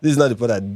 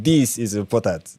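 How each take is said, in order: First: Said in the usual way. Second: "This is important" said slowly, leaning on "This"; deliberate, pointed emphasis on "This"; stress on This. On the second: Shown as a demonstration. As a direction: hit the word "This" and slow down. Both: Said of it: "Not, this is not important".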